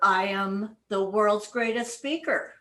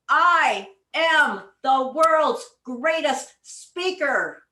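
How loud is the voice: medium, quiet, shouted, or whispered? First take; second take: medium; shouted. First: It is spoken at a moderate volume. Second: It is shouted at full volume. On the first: "Again, a little louder" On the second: "we are going to shout"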